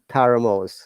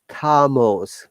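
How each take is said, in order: First: The R sound is pronounced. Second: The R sound is silent. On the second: "no R"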